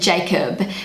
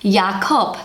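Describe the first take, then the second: First: The name starts with an English j sound. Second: The name starts with a y sound. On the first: "Kiwi pronunciation" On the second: "the J in Jacob is pronounced with a Ya"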